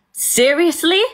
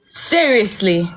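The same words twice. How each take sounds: First: High-pitched, disbelieving question; incredulous. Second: Slow, drawn-out, falling question; deadpan disbelief. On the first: Storyteller reacting to his call after the attack, incredulous. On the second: Storyteller dwelling on his nerve in calling, deadpan disbelief. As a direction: stretch it out and let it drop. Repeats it slower and lower. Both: Real, not acted.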